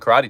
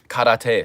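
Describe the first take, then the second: First: The word is said with English-style pronunciation. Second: The word is said with Japanese-style pronunciation. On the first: The speaker calls it wrong. "I'm pronouncing it wrong" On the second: The speaker calls it right. "should I say"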